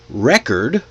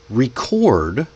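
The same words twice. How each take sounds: First: It is said as a noun, stressed first. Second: It is said as a verb, stressed second.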